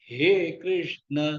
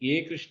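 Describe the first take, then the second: First: The first word begins with a breathy h. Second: The first word begins with a plain vowel. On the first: The speaker calls it right. "ஹே கிருஷ்ண தொண்டையிலேருந்து வரணும்" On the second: The speaker calls it wrong. "ஏ கிருஷ்ண இல்ல"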